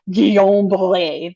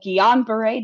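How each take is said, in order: First: The name is said with an exaggerated French accent. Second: The name is said plainly, without a French accent.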